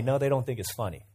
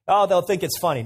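First: Said in the usual way. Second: Naive confident quote. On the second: Retold or imitated. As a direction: lightly imitate a careless adviser.

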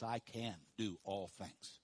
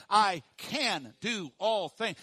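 First: Soft and slow, I can do all things; quiet, slow affirmation. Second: Louder, slow, punch each word of I can do all things; loud, slow affirmation. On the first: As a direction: say it gently and slowly, to yourself. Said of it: "Say that with me". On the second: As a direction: proclaim it with the crowd, slowly. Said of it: "say it with me". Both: Shown as a demonstration.

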